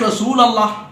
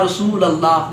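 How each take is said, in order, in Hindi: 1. l के बाद का स्वर 'u' है। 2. l के बाद का स्वर 'a' है। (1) "अब हम या के बगैर पढ़ते हैं" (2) "लाम पर जबर पढ़ते।"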